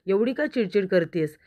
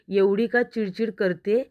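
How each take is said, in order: First: Mildly fed-up question, falling away; exasperated question. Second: Slow, mock-indignant echo, rising at the end. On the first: Retold or imitated. Arnav asking Ishwari about her irritability, mildly exasperated. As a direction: ask it in mild exasperation. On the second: Ishwari repeating Arnav's question back, mildly indignant. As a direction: throw the question back slowly, lifting the end.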